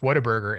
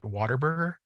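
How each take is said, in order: First: It is said without an R sound after 'wha'. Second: It is said with an R sound, like 'water'. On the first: This is the name as written. "it's Whataburger" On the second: This is how the locals say it. "everybody here calls it Waterburger"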